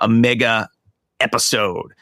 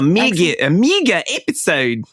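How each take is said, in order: First: It is said in the speaker's normal accent. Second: It is said in a New Zealand accent.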